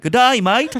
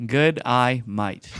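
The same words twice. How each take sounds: First: High, loud put-on Aussie; Australian accent. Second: Slow, separated words. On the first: Podcaster shows how to sound Australian, loud high Aussie accent. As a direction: belt out a hammed-up Australian greeting. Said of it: "If I wanna sound like Australian, I'd be like". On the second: Podcaster obediently repeats three words one by one, slow and deliberate. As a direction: read each word slowly on its own. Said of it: "try saying these three words and not sounding like an Australian". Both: Shown as a demonstration.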